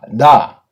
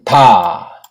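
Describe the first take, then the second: First: The first consonant is voiced, with vocal buzz. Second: The first consonant is voiceless, without vocal buzz. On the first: "유성음, 울림 소리를 해줘야 돼요" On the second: "무성음으로 다"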